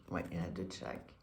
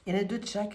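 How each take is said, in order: First: Low, quick, quiet mutter; muttering to herself. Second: Said in the usual way. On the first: Real, not acted. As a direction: mutter it under your breath. Repeats the count to herself.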